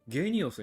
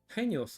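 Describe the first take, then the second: First: The word begins with a g sound. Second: The word begins with an h sound. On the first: This follows the spelling read as romanization. "ローマ字読みで通すんだったら、ヘニオスはゲニオスになるはず" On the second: This is the registered name. "登録されている名前はヘニオス"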